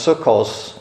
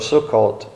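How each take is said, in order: First: The word ends with an S sound. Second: The word ends with a T sound. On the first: "pronounces the T as an S" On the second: "instead of Sukkot"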